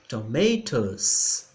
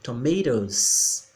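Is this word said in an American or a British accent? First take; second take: British; American. First: It is said in a British accent. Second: It is said quickly in an American accent. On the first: "Na britânica a gente pronuncia da mesma forma que está aí" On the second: "pronúncia americana, que é uma pronúncia mais rápida"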